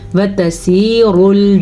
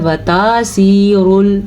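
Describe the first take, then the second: First: The vowel after 't' is kept short. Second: The vowel after 't' is drawn out long. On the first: The speaker calls it right. "ये वता है" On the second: The speaker calls it wrong. "अगर कोई पढ़ता है वतासीरुल तो गलत पढ़ता है"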